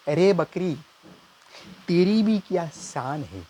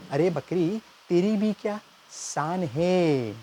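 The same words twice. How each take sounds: First: Higher, slow, grand poetry recital; mock shayari recital. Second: Higher, the last words stretched very slowly; milk the line like a poet waiting for applause; drawn-out shayari. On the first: Nephew reciting a mock couplet to uncle, grand and slow. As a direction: declaim like a mushaira poet. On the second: Acted. Nephew repeating the couplet, dragging out શાન હૈ. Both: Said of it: "હું શાયરીની ભાષામાં કહીશ".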